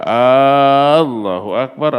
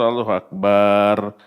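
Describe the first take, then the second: First: The first vowel of Allah is drawn out. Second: The final vowel in bar is drawn out. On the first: "A-nya dalam Allah"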